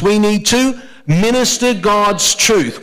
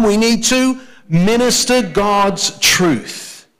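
First: Chanted, lead the church in saying it together, slowly; congregation chant. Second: Repeat together, slower. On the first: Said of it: "Can we say this together?". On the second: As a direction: drive the phrase home a second time, slowly. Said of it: "One more time". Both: Shown as a demonstration.

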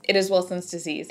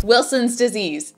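First: Said in the usual way. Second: Loud, slow, triumphant quiz answer; game show answer. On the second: Pretend. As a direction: call out the answer like a winning contestant. Answering Diagnosis Jeopardy like a contestant.

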